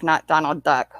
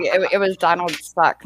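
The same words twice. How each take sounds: First: Said in the usual way. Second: "Suck" said with an S, not "Duck"; "Donald Suck" with a hissed S. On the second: Retold or imitated.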